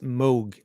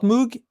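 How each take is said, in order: First: The word rhymes with 'rogue'. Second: The word does not rhyme with 'rogue'. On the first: The speaker calls it right. "the correct pronunciation is Moog, like in Rogue" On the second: The speaker calls it wrong. "It's not Moog"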